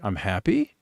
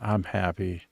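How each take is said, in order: First: It is said with a questioning tone. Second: It is said with an ironic tone. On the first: The speaker is asking rather than stating. "it's a bit of an inquisitive thing" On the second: The speaker is not actually happy. "it doesn't sound like I'm happy. I said"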